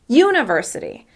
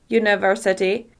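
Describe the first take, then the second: First: The stress is on the first syllable. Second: All syllables are equally long and stressed. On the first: "with stress on the first syllable" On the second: "make each syllable exactly the same length"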